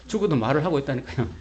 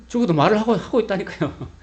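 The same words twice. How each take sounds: First: Said in the usual way. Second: Insistent. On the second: Real, not acted. Preacher insisting, repeating point.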